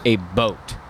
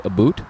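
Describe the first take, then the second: First: "boat" with a slow oh vowel; drawn-out, milder Canadian "a boat"; realistic Canadian "about". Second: "boot" with a long oo vowel; exaggerated Canadian "about". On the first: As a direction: say "a boat" with an oh in place of ow. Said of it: "more realistic one that you'll hear some Canadians". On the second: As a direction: say "a boot" with an oo in place of ow. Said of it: "more so, where you get more a boot". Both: Shown as a demonstration.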